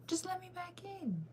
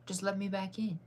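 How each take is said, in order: First: Way up high, slow and soft, begging; high whiny plea. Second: Said in the usual way. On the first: Real, not acted. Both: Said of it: "repeats, begging".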